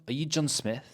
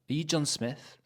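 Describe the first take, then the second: No difference in how they are said.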